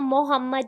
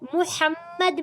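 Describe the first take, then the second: First: The first vowel is an o-like sound. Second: The first vowel is a short rounded u. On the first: The speaker calls it wrong. "मजहूल नहीं पढ़ना, मोहम्मद नहीं पढ़ना" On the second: The speaker calls it right. "मीम की पेश को गोल पढ़ेंगे"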